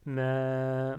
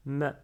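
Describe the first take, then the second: First: MA stretched long, "mèèè"; prolonged vowel. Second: Said in the usual way. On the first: Shown as a demonstration. Teacher contrasts with short ma, MA held long. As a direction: hold MA on a long level vowel. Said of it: "avec le alif, je lis". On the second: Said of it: "si j'avais pas ce alif".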